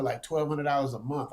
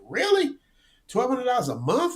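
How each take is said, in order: First: Said in the usual way. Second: Much higher, incredulous echo; surprised disbelief. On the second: Retold or imitated. Retelling his shock at the friend's cheap Thailand rent, high and incredulous. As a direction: repeat the number back in stunned disbelief.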